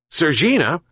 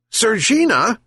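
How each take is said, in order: First: Calling out. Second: Much higher, louder second call; louder repeat shout. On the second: Sick fisherman shouts again for the cat, higher. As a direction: call again, pushing it up high. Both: A narrator's reading. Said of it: "he shouted again".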